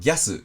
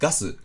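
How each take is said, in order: First: The vowel is a glided 'gya'. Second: The vowel is a plain 'ga'. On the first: "英語を少し意識すると" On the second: "コテコテの日本語発音だと"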